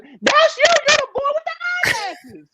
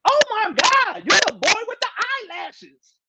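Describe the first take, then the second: First: Much higher, shrieking yell of recognition; excited fan shout. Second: Light high squeal imitating a fan who spots him; a hint of an excited sister calling out, higher; mock excited woman. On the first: Retold or imitated. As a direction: scream it like a fan spotting a star. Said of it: "She was". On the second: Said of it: "the sister just yelled out".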